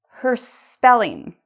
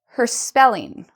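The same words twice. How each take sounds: First: The phrase is said at a slower pace. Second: The phrase is said at a faster pace.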